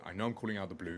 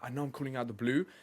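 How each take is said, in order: First: The pitch falls at the end. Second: The pitch rises at the end. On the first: The speaker sounds confident. The speaker calls it right. "because it finishes on a downturn, it makes me sound a lot more confident" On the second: The speaker sounds unsure. The speaker calls it wrong. "Blue, right? ... I just don't sound confident"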